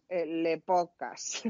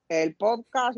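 First: "el le podcast" slow, with a joking French "le"; mock French article. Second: Said in the usual way. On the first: Shown as a demonstration. Joking about the word's gender, mock French and slow. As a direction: stretch out "el le podcast", tacking on a French "le". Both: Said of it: "El podcast, la podcast".

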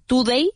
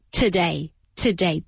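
First: "Today" mispronounced as too-day with a full u; wrong full U. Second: "today" as tuh-DAY, lower, weak first syllable; soft neutral vowel. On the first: Teacher showing the error, "Today" said as too-day. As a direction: put a Spanish "tu" in "Today". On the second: Teacher giving the correct form, "today" with a soft tuh. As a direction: reduce the o of "today" to a schwa. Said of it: "Esta O se pronuncia como si fuera". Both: Shown as a demonstration.

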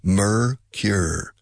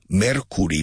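First: "Mercure." with the r-coloured "mur" and a rhyming "kyur" ending; correct English pronunciation. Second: "Mercury" said as Spanish "mer-KU-ri" with a rolled r and full vowels; Spanish-style mispronunciation. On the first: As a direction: say "Mercure." so that "mer" and "cure" rhyme. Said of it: "The first syllable and the second syllable sound identical". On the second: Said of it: "No, Mercure". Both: Shown as a demonstration.

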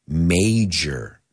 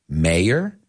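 First: "major" as MAAY-jer, long A, falling; J sound, long A. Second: "mayor" as MAY-er with a Y glide, rising; Y sound. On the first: Teacher contrasting near homophones, "major" with extended A and J. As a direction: stretch the A in "major", then a clear j. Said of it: "that A is extended more". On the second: Teacher contrasting near homophones, "mayor" with a Y sound. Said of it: "it's not just the Y and the J sound". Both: Shown as a demonstration.

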